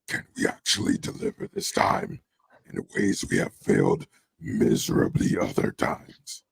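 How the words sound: It is said in an exaggerated, put-on character voice.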